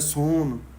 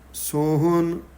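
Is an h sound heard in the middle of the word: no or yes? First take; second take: no; yes. First: No h sound is heard in the middle. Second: An h sound is heard in the middle. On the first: The speaker calls it wrong. "ਸੋਹਣ ਬਹੁਤੀ ਕਰਕੇ ਸੋਨ ਪੜ੍ਹਿਆ ਜਾਂਦਾ" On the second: The speaker calls it right. "ਸੋਹਣ ਵਿੱਚ ਹਾਹਾ ਬੋਲਣਾ ਹੈ"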